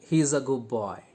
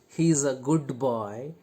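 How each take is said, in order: First: The d in 'good' becomes a b sound. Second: The d in 'good' is clearly pronounced. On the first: The speaker calls it right. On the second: The speaker calls it wrong.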